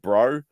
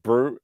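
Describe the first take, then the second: First: It is said in an Australian accent. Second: It is said in a New Zealand accent.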